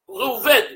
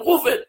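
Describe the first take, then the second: First: The stress falls on the last syllable. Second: The stress falls before the last syllable. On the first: This is how it is read in scripture. "בתורה אומרים ראובן" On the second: This is the everyday pronunciation. "ברחוב אומרים ראובן"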